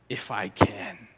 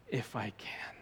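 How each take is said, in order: First: It is said in a snarky, mocking tone. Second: It is said in a gentle, compassionate tone. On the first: The ability is obviously not in question. "You could go snarky" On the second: The doubt is met with care. "Is it compassionate?"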